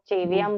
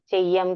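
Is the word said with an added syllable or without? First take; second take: added; without. First: The word is said with an extra syllable added. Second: The word is said without an extra syllable. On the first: The speaker calls it wrong. "Mostly लोग चेवियम बोलते हैं" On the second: The speaker calls it right. "चेयम की जगह"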